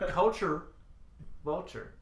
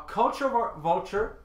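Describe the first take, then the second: First: CULTURE, a long pause, then VULTURE; slow, careful. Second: CULTURE VULTURE tripped over, breaking off at "var-"; tongue-tied stumble. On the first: Podcaster retrying a tongue twister, slow and careful. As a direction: separate "culture" and "vulture" deliberately, dropping on the second. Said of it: "I have to say that so slow". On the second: Podcaster tripping over a tongue twister mid-rant, tongue-tied stumble. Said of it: "Tongue twister". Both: Real, not acted.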